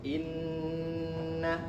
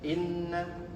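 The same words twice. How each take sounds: First: The doubled n is held with a long nasal hum. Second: The doubled n is passed over quickly without holding. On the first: The speaker calls it right. "harus ditahan dulu ya" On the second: The speaker calls it wrong. "jangan selonong boy"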